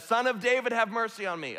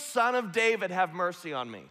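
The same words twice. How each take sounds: First: High, insistent call held up through the plea; raised voice, pushed a little harder; crying out louder. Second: Crying out. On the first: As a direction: imitate a beggar calling out more forcefully. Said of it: "he cries out even more loudly". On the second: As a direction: imitate a beggar calling out, falling away at the end. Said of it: "so he cries out above the noise of the crowd". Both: Retold or imitated.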